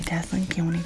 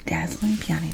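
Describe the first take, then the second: First: Said in the usual way. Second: Breathy whispered trigger word. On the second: Shown as a demonstration. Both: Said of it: "repeated trigger word".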